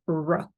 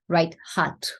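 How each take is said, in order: First: The R is made with rounded lips, no throat. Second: The R is a rough sound in the throat. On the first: The speaker calls it right. "it would have to be r, r. So the lips have to round and nothing happens in the throat" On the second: The speaker calls it wrong. "instead of"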